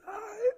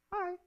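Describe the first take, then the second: First: A much higher, nervous, squeaky "Hi". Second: Put-on a soft, sweet girl's "Hi". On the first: Acted. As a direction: squeak out "Hi" like a boy too shy to talk. Nervous boy answers his crush. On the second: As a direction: breathe out a sweet little "Hi". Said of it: "in her sweet, soft voice".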